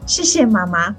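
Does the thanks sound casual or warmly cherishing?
cherishing. The thanks sounds warm and cherishing.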